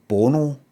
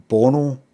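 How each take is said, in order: No difference in how they are said.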